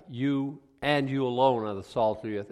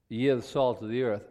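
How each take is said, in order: First: "You and you alone" leaned on, a touch louder; stress on you and you alone. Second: Said in the usual way. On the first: Shown as a demonstration. Pastor explaining the emphatic to the class, stressing "you alone". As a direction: press hard on "you alone" as the exclusive point. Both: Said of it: "and it's another emphatic".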